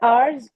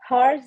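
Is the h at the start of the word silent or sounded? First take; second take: silent; sounded. First: The word starts with a vowel, no h sound. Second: The word starts with a clear h sound. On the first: The speaker calls it right. "Twenty four आवर्स होता है" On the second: The speaker calls it wrong. "हार्स नहीं होता है। एच silent होता है"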